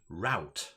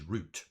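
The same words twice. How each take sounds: First: The vowel sounds like the 'ow' in 'cow'. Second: The vowel sounds like the 'oo' in 'boot'. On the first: This is the American pronunciation. "I think in the U S, people pronounce that second word route" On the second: This is the British pronunciation. "This is route, right? I can say that because I'm from Manchester"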